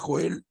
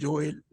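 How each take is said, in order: First: The name begins with a harsh throaty H sound. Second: The name begins with a Y sound. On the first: "si alguien quiere decirle Joel" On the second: "se pronuncia Joel ... en el hebreo es como la Y"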